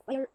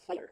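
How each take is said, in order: First: "fire" with the long vowel. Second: "fire" with the short vowel. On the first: Teacher showing students the long Middle English way, long vowel. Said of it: "like, long". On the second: Teacher showing students the modern English way, short vowel. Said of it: "and then the short way". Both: Shown as a demonstration.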